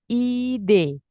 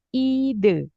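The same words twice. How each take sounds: First: The final vowel matches the e in ideal. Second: The final vowel differs from the e in ideal. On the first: The speaker calls it right. "kata yang benar fonemnya adalah ide" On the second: The speaker calls it wrong. "bukan ide"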